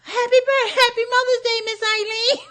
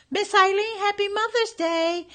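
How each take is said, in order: First: Put-on very high, loud little mousy girl voice; imitating a mousy voice. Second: Put-on high, tiny mousy girl voice; high mousy voice imitation; imitating a mousy voice. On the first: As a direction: squeak it like a tiny mouse. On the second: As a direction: squeak it out like a little mouse. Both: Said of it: "she imitated Kiana's voice".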